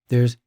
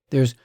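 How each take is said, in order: Both takes have the same delivery.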